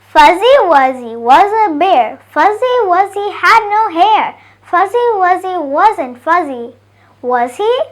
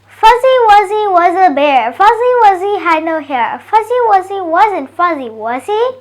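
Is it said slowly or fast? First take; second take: slowly; fast. First: It is said slowly. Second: It is said faster.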